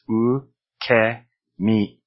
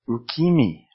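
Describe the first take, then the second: First: The middle vowel sounds like 'eh'. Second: The middle vowel sounds like 'ee'. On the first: The speaker calls it right. "like eh" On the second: The speaker calls it wrong. "they would say ki"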